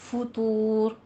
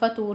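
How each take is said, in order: First: The first vowel is said with rounded lips. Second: The first vowel is said with unrounded lips. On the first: The speaker calls it right. "दोनों होंठ गोल कीजिए" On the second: The speaker calls it wrong. "फतूर नहीं पढ़ना"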